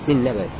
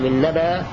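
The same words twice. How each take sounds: First: The word ends in a faint, eased sound. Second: The word ends in a plain long vowel. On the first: "أو تسهل مع الروم" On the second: "بإبدال الهمزة ألفا تمد بمقدار حركتين"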